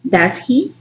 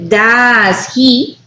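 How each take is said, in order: First: Short, softer "Does he" as a quick check; checking intonation. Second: Slow, stretched "does he" lifting on "he"; rising intonation. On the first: Teacher contrasting the tag for confirming information, checking intonation. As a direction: say "Does he" briefly and quietly, without stretching "does". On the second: Teacher contrasting the unsure tag, rising intonation. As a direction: draw out "does", then raise "he" as a real question. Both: Shown as a demonstration. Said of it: "you make a difference here".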